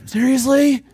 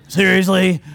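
First: Higher and louder, exasperated complaint; imitating impatient believers nagging God; whiny demand. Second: Louder, laughing seriously; amused, half-laughing question; laughing at his own joke; laughing disbelief. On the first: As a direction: demand it like a fed-up kid. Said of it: "that's what it sounds like when we talk to him". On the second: Real, not acted. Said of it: "that's how I like to imagine it".

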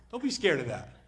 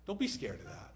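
First: Firm reassurance. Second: Soft reassurance. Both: Real, not acted.

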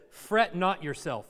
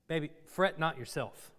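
First: Said in the usual way. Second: Put-on softer, hushed "Baby, fret not yourself"; mock tender husband. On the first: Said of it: "he says it in biblical language". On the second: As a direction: gently soothe an upset wife, half joking. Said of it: "that's what you should say instead".

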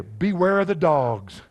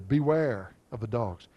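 First: Slow, loud and emphatic, leaning on each word; stern warning. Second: Said in the usual way. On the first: Acted. Preacher warning his church, slow and loud. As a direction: read it out as a solemn alarm.

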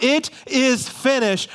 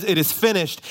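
First: High, drawn-out cry from the pulpit; mock yell. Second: Said in the usual way. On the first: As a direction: proclaim it slowly, pitched high. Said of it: "when he yells out". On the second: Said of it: "So when he says".

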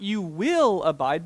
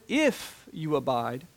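First: Said in the usual way. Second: "if you abide" slow, weight on "if"; stress on if. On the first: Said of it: "not, not". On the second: Shown as a demonstration. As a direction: lean slowly into "if".

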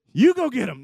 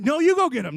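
First: High, loud frantic order; hammed-up squabbling shout; panicked ordering. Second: Very high, loud retort; hammed-up frantic squabbling shout; panicked insisting. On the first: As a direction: shove the job onto someone, loudly. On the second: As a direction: throw the order back, louder and higher. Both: Acted argument between freaking-out disciples.

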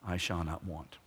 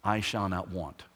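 First: I shall not want, repeated lower and softer; softer echo. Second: I shall not want, said firmly with a falling close; firm declaration. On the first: Preacher echoes the verse softly to the congregation. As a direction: let the repeat sink in quietly. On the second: Preacher first states the verse, firm and falling. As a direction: declare it plainly, each word placed. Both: Shown as a demonstration. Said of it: "this is a gutsy statement".

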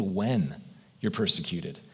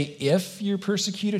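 First: "When" set apart, then a pause; stress on when. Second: "If" leaned on, held slow; stress on if. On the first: Pastor quoting Jesus, weighting the word "When". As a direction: land "When" as certain, falling. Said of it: "He said". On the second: Pastor contrasting Jesus's words, leaning on "If". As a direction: make "If" sound doubtful, optional. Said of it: "Jesus doesn't say". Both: Shown as a demonstration.

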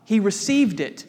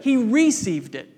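First: Said in the usual way. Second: First syllable of "received" punched as a long REE; contrastive stress on "received". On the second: Real, not acted. Preacher contrasting received with conceived, stress on first syllable of "received". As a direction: hit the RE in "received" against "conceive".

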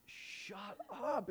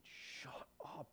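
First: Higher pitched playful shut up; playful high-pitched shut up at the party; high mock disbelief. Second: Softer, breathy whispered disbelief; stunned whispered shut up to a friend; disbelieving whisper. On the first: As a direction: toss it up high in fake outrage. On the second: Retold or imitated. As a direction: hush it out like you can't believe it.

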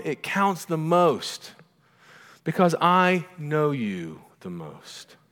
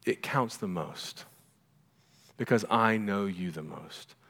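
First: Slow, high, emphatic declaration; forceful, drawn-out reassurance, pitched up; insistent mother. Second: Soft, slow, lowered delivery; quiet, measured fatherly assurance; tender reassurance. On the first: Retold or imitated. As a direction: land every word with motherly conviction. Mother insisting to her crying son. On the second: Acted. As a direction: let it sink in gently. Same words as the Father's reassurance.

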